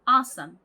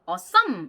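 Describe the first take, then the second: First: The stress is on the first syllable. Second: The stress is on the second syllable. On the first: The speaker calls it right. "앞을 빡 강조해주면서" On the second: The speaker calls it wrong. "뒤에다가 강세를 찍으시는 경우가 많은데"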